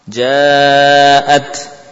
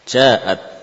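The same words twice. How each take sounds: First: The long vowel is held for four counts. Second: The long vowel is held for two counts. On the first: The speaker calls it right. "Kita pakai empat dulu lah" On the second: The speaker calls it wrong. "membaca dengan dua rakaat misalkan"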